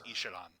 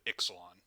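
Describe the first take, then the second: First: The name is pronounced in a Mesoamerican style. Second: The name is pronounced in a Latin style. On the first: "if you pronounce it in like the the Mesoamerican way" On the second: "they pronounce it in the more Latin way of Ixalan"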